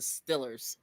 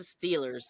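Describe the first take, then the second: First: The vowel is a short i sound, Pittsburgh pronunciation. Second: The vowel is a long ee sound, general pronunciation.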